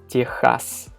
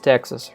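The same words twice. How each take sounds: First: It is said with a Russian pronunciation. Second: It is said with an English pronunciation.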